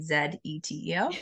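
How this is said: It is spelled the Canadian way.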